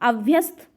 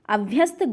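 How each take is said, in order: Both takes have the same delivery.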